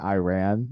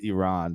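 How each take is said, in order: First: Iran is said with the usual American pronunciation. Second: Iran is said with the Iranian pronunciation. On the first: This is how Americans had been saying the name. The speaker calls it wrong. "we had been pronouncing it Iran" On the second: This is how the country's own people say the name. The speaker calls it right. "for the record, it's Iran"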